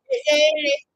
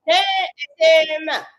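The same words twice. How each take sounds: First: The line pitched way up high and loud; high take. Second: Stretched out slow and loud, falling at the end; slow take. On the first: Rehearsing a lyric take, pitched way up. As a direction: squeak it out high. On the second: Rehearsing a lyric take, slowed right down. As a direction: drag each word out slowly. Repeating the line in takes. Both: Shown as a demonstration.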